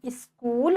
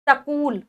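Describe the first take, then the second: First: स्कूल with a half s, sk joined; स्कूल drawn out slowly with the cluster clear; correct pronunciation. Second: सकूल said as sa-kool with a full sa; सकूल spoken with an extra vowel in front; wrong pronunciation. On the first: Teacher slowly says the right स्कूल for the class. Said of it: "आधा सा". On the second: Teacher reads the misspelt सकूल aloud for the children. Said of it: "नहीं, स्कूल". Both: Shown as a demonstration.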